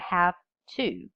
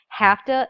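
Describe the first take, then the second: First: Each sound in both words is clearly pronounced. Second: The words are slurred together into one reduced form. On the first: The speaker calls it right. "instead of" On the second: The speaker calls it wrong. "poor articulation would be saying"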